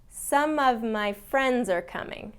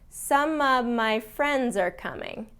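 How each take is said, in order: Both takes have the same delivery.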